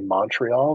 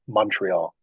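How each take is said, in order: First: The first vowel is an open 'o' sound. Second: The first vowel sounds like 'u', Canadian style.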